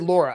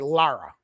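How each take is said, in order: First: The first vowel sounds like 'law'. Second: The first vowel sounds like 'car'. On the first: The speaker calls it wrong. "I don't say Laura" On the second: The speaker calls it right. "I say Lara"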